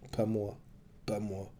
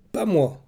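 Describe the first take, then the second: First: Soft, fading repeated words; the cry dying away in his head; faint inner echo. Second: High, loud anguished cry; child's shout. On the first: Oreste hearing the child's cry inside, soft and fading. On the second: Boy bursting from hiding, screaming at his mother. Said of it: "avait bondi de sa cachette et hurlé". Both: A narrator's reading.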